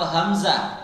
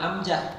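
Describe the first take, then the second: First: It starts with h and has a z sound. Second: It drops the h and has a j sound. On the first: The speaker calls it right. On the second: The speaker calls it wrong.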